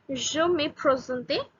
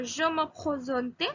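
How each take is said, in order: First: "Je me présente" slowly, with a plain English-style R; simple R. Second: Slow "Je me présente" with a throaty, h-like R; French-style R. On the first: Teacher simplifies so learners can understand, plain R in "présente". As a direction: keep the R in "présente" simple and easy. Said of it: "pronounce the R as in a simple way". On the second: Teacher previews the French accent for learners, throaty R in "présente". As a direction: make the R in "présente" guttural, like an h. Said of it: "I would pronounce R in the similar way". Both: Shown as a demonstration.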